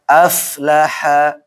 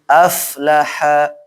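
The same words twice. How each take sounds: The two takes are said the same way.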